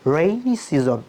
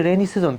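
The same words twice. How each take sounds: First: Slow "রেইনি সিজন" with curled-tongue r; British-style soft R. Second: "রেইনি সিজন" with an ordinary quick r; local pronunciation. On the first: Teacher showing how the British say it, slow soft r in "রেইনি সিজন". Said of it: "জিহ্বা একটু ভাঁজ করতে হবে". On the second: Teacher showing how we say it, ordinary r in "রেইনি সিজন". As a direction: say "রেইনি সিজন" without curling the r. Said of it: "আমরা বলি". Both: Shown as a demonstration.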